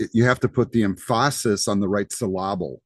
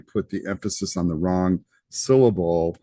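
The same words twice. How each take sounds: First: "emphasis" as "em-FA-sis", "syllable" as "sil-LA-ble"; joking misplaced stress. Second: Said in the usual way. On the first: Retold or imitated. Teacher's joke from Greek school, "emphasis" and "syllable" stressed mid-word. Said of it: "My teacher would do this".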